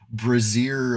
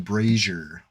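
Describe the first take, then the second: First: The word does not rhyme with Frazier. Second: The word rhymes with Frazier. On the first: The speaker calls it wrong. "it's not Brazier" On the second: The speaker calls it right. "like Frazier"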